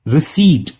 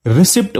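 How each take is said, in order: First: रिसीट with long ee and silent p; correct pronunciation. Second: रिसिप्ट with the p sounded before the t; common mispronunciation. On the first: Teacher correcting a common mistake, रिसीट with silent p. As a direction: say रिसीट clearly, ending "seet". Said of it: "इसका सही pronunciation है". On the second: Teacher quoting the common mistake, रिसिप्ट with a sounded p. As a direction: say रिसिप्ट with short i and audible "pt". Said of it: "लोग अक्सर गलत pronounce करते". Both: Shown as a demonstration.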